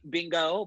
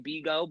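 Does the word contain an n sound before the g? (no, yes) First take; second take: yes; no. First: There is an n sound before the g. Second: There is no n sound before the g. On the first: Other people say it this way. The speaker calls it wrong. "some people say Bingo" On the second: The speaker says it this way. The speaker calls it right. "but I say Bigo"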